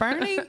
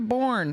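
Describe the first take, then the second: First: The name is said with two syllables. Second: The name is said with one syllable. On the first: The speaker is a local. The speaker calls it right. "And you're like" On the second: The speaker is not from around here. The speaker calls it wrong. "They say, How do we get to Bourne?"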